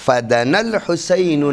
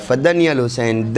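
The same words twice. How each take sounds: First: "فَدَنَا" with an open a after the n; correct reading fadana. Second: Quick "فَدَنِيَ" with ni-ya in place of na; wrong reading fadaniya. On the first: Shown as a demonstration. Teacher models the correct Hadith Kisa line, fa-da-na. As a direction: recite "فَدَنَا الْحُسَيْنُ" as fa-da-nal, no ee. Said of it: "اس کو پڑھنے والے اکثر پڑھتے ہیں". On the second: Retold or imitated. Teacher quotes reciters' misreading of Hadith Kisa, quick fa-da-niya. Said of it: "پڑھنے والے اکثر پڑھتے ہیں".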